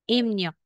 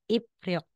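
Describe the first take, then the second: First: The middle is pronounced with an 'mn' sound. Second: The middle is pronounced with a 'pr' sound. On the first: The speaker calls it right. "magiging Imnyok" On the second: The speaker calls it wrong. "kung sa spelling"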